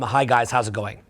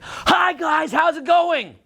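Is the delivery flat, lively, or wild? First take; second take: flat; wild. First: It is said flatly, with narrow range. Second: It is said wildly, with exaggerated energy.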